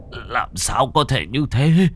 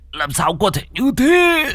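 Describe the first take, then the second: First: Slow, higher-pitched shock; dazed, drawn-out question; stunned disbelief. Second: Very high wailing cry; shrieked, despairing question; anguished disbelief. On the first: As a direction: draw it out in disbelief. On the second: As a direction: cry out in horrified denial. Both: Acted.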